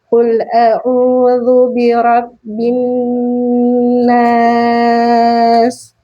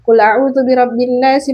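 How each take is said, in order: First: It is recited slowly with drawn-out, careful sounds. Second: It is recited quickly and flatly, without care. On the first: The speaker calls it right. "dengan tartil tadi ya, seperti ini contohnya" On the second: The speaker calls it wrong. "asal asal asal membaca saja ... lurus saja"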